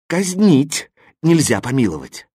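There is a pause after the first word. The execution goes ahead and there is no pardon. The speaker calls it wrong. "Если я поставлю запятую после слова «казнить», то будет так"

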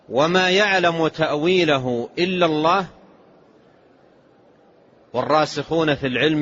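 There is a pause after the word Allah. Only God knows the true reality of the ambiguous verses. "بالوقف"

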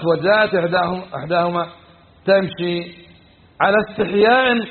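There is a pause before 'ala istihya'. The shyness is in her speech. "صار هنا الاستحياء أين؟ في قولها"

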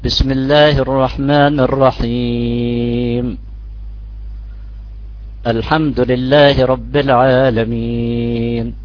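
A pause of over a second separates the phrases. "يمكن أخذ أكثر شوي من ثانية الوقف بين الرحيم الحمد لله"

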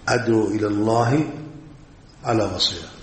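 There is a pause inside the phrase. The phrase is split into two separate parts. "تقف هنا"

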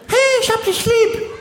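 It sounds irritated and annoyed. She is getting angry waiting for a reply.

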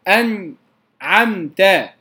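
There is a short break after the n sound. The speaker calls it wrong.

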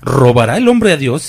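It is delivered dramatically, with heavy expressive intonation.

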